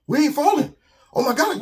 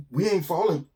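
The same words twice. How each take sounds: First: Thrilled cry; excited realisation. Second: Hushed, stunned "We ain't falling". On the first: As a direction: shout it as joy breaks through. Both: Acted. Animals realise they float.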